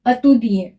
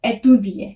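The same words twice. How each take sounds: First: "अतुदिए" starting with uh: uh-tu-dee-ay; unaccented first vowel. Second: "एतुदिए" starting with ay: ay-tu-dee-ay; accented first vowel. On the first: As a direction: open "अतुदिए" on a neutral schwa. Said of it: "इसका pronunciation होगा". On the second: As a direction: open "एतुदिए" on a clear French é. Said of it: "इसका pronunciation हो जाएगा". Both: Shown as a demonstration.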